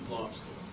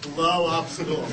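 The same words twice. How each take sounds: First: It is said at normal, quieter volume. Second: It is said louder, toward the camera.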